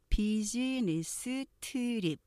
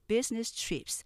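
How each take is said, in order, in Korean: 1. 한국식이고, 음절이 더 추가되어 있어요. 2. 영어식이고, 세 음절로 발음해요. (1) "비즈니스 트립 이렇게 발음하기 쉽지만" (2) "들어보시면 business trips 삼음절"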